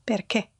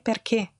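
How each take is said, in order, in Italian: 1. La vocale finale è una E chiusa. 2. La vocale finale è una E chiusa.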